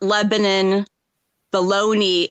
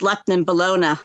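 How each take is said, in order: First: Lebanon is said the way outsiders say it. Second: Lebanon is said the way locals say it. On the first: The speaker is not from the area. The speaker calls it wrong. "It's not" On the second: The speaker is from the area. The speaker calls it right.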